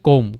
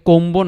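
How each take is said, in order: First: The word ends on the m sound. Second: A b sound is heard at the end. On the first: The speaker calls it right. "বি উচ্চারিত হয়নি" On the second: The speaker calls it wrong. "কোম্বো না কিন্তু"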